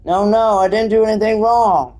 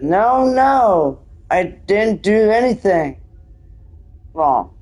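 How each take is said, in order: First: Higher protest run together in one breath; continuous, theatrical denial; quicker acted reread. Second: Slow, halting protest with a break before the last word; drawn-out, higher-pitched denial; slow acted reading. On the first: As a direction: plead innocence without pausing. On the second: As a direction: plead innocence slowly, phrase by phrase. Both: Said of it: "Sorry, I read it so slowly".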